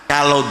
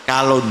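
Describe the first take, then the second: The two takes are said the same way.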